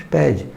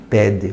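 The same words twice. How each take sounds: First: "pede" with the final e reduced toward i, as pedji; natural pronunciation. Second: "pede" with a full, clear final e; not said like this. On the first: Teacher showing the natural way to say "pede". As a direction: say "pede" the everyday Brazilian way. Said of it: "não falamos pede, falamos pede". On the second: Teacher showing how Brazilians do not say "pede". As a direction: pronounce "pede" as spelled, a clean e at the end. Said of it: "não falamos pede". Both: Shown as a demonstration.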